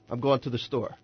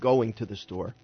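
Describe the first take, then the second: First: Going is clipped so it sounds like gone. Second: Going is said fully with its -ing ending. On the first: The speaker calls it right. "It's gone. I'm gone" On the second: The speaker calls it wrong.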